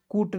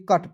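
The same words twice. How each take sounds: First: कूट with a long oo; wrong reading. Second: कट with a short "uh" vowel; short-vowelled कट, rhyming with but; correct reading. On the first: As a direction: say कूट to rhyme with boot. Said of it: "कूट नहीं पढ़ेंगे". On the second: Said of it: "कट पढ़ेंगे". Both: Shown as a demonstration.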